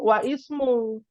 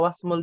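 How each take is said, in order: First: The vowel after wa is pronounced separately. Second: The vowel is dropped and wa links into s. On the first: "harusnya wa ismu" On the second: "jadi sukun wasmul"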